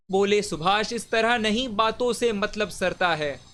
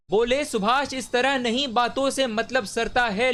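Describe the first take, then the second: First: Firm, measured poetic declamation; declaimed verse. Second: Higher-pitched, more urgent verse declamation; heightened declamation. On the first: Reciter voices Subhash answering the crowd, measured declamation. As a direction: state the leader's challenge firmly, in verse rhythm. First take of repeated verse line. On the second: Reciter voices Subhash challenging the crowd, raised rousing declamation. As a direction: lift the leader's challenge into a ringing call. Line repeated with raised intensity. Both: Acted.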